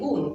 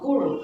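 First: The final n is a plain n sound. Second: The final n has an r-like colouring. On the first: "বাংলায় উচ্চারণ করলে বলি গুণ" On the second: "নয়ের সঙ্গে একটু রয়ের মতন সাউন্ড আসবে"

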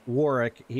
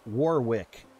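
First: The second w sound is pronounced. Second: The second w sound is pronounced.

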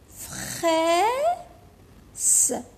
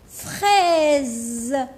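First: The consonant is pronounced as a hissing s. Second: The consonant is pronounced as a buzzing z. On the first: The speaker calls it wrong. "ماشي هذه فخاس" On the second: The speaker calls it right. "نقولوا لها فخاز"

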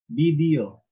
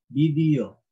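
No difference in how they are said.

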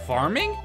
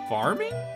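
First: It sounds eager and delighted. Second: It sounds doubtful and unimpressed. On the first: The listener loves the idea of the game. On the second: The listener has no interest in the game.

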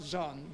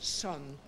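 First: The word begins with a buzzing z sound. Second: The word begins with a quick hissing s. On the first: The speaker calls it wrong. "not Zon" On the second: The speaker calls it right. "a quick S"

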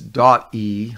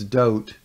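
First: The word is said as two syllables. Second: The word is said as one syllable. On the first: The speaker calls it wrong. "I don't think it's dot E" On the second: The speaker calls it right. "I think it's dote"

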